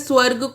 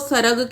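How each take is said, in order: First: It starts with the cluster 'sw', no vowel inserted. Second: A vowel splits the cluster, giving 'sa-rag'. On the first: The speaker calls it right. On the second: The speaker calls it wrong.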